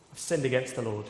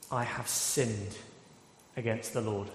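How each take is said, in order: First: Said in the usual way. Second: 낮고 느린 고백; humble confession. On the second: Retold or imitated. David's confession, quoted solemnly.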